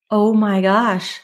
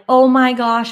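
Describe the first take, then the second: First: Slow, drawn-out dawning gasp of words; stunned realization. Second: Freaking out. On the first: Leaving the mentor's studio, slowly realizing she's right. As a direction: let it sink in slowly, awed. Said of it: "And I left and I was like". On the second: Driving home overwhelmed by the new prices, mildly panicked. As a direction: blurt it in a rush of retold panic. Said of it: "like, freaking out". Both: Retold or imitated.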